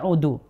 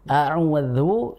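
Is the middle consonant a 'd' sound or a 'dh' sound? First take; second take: d; dh. First: The middle consonant is a plain 'd' sound. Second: The middle consonant is a 'dh' sound. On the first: I must go back. The speaker calls it wrong. "jangan sampai terbaca a'udu" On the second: I seek refuge. The speaker calls it right. "a'udzu itu pakai dal"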